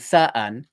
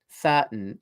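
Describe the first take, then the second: First: The second syllable is a separate un sound. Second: The second syllable ends in a bare n. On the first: It sounds rough. The speaker calls it wrong. "sounds very rough" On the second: It sounds mature and refined. The speaker calls it right. "sort of mature and refined"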